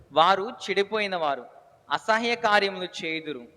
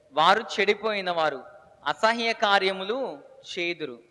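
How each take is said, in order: No difference in how they are said.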